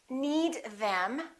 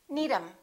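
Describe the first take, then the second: First: The TH at the start of them is pronounced. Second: The TH at the start of them is dropped.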